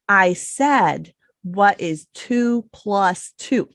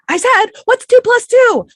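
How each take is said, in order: First: It is said slowly and carefully. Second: It is said fast and urgently.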